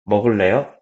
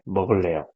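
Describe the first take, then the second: First: The pitch rises at the end like a question. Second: The pitch falls at the end like a statement. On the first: It asks whether the listener wants to eat. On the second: It says the speaker wants to eat.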